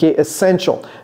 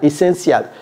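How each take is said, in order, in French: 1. Le mot se prononce à l'anglaise. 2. Le mot se prononce à la française. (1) "Very necessary is essential" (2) "je n'ai pas dit essentiel"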